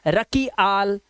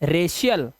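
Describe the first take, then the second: First: The c is pronounced as a k sound. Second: The c is pronounced as an sh sound. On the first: The speaker calls it wrong. "कई बच्चे से पढ़ेंगे रकी आल" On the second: The speaker calls it right. "सी के बाद आई ए आया तो ये हो गया रेशियल"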